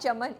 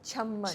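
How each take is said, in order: First: The middle m sound is short. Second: The middle m sound is held long. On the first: The speaker calls it wrong. "It's not Chaman" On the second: The speaker calls it right. "it is it is Chamman"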